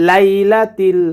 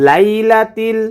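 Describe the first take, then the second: The two takes are said the same way.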